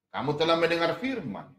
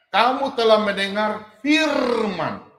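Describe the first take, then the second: First: Said in the usual way. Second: "kamu telah mendengar firman" read slowly, louder and higher, leaning on "telah"; loud, drawn-out "telah" to make the class notice; emphatic slow reading. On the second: Shown as a demonstration. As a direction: spell out every word, hitting "telah" hard.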